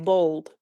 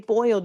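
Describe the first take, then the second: First: The vowel sounds like the long 'o' of bold. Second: The vowel is a full 'oy' sound. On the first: This is how people in the South say it. "you say bold" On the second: This is how people outside the South say it. "here in the South you don't say boiled"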